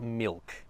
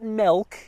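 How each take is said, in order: First: The vowel is a clear short i sound. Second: The vowel is not a short i sound. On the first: The speaker calls it right. "It's milk. It's got an I" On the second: The speaker calls it wrong. "Not not milk"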